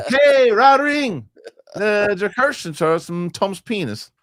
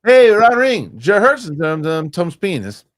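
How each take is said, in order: First: Stretched-out squeaky high quote voice; slow mock Simlish-like squeak. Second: Squeaky high mock foreign name-reading; shrill cartoonish high pitched quote, louder; high squeaky movie-quote voice. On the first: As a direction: draw each name out high and squeaky. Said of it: "Are you guys doing Simlish?". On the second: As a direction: read the names like a squealing mermaid.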